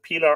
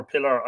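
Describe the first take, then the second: First: "Pilar" with a long ee, PEE-lar. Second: "Pilar" with a short i, PILL-ar. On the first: Host checking a viewer's name, "Pilar" with long ee. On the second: Host checking a viewer's name, "Pilar" with short i. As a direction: say "Pilar" like the word pillar. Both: Shown as a demonstration. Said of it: "sorry if I'm mispronouncing".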